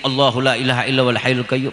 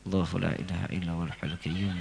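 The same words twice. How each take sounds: First: It is recited louder still. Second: It is recited quietly, almost under the breath. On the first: "Agak dikencengin" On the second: "jangan dijaharin bacanya, disir"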